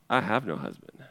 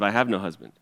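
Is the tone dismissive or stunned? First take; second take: stunned; dismissive. First: It sounds stunned and stopped short. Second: It sounds defensive and dismissive.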